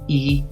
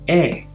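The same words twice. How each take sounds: First: The vowel is the long E sound. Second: The vowel is the short E sound. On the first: "Long sound E" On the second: "short sound E"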